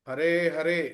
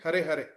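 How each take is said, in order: First: The final vowel of each word is long. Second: The final vowel of each word is short. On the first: The speaker calls it right. "ಹರೇ ಹರೇ ಅನ್ಬೇಕಾದ್ರೆ" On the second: The speaker calls it wrong. "ಹರೆ ಹರೆ ಅಂದ್ರೆ ದೀರ್ಘ ಅಕ್ಷರ ಎಲ್ಲಿದೆ"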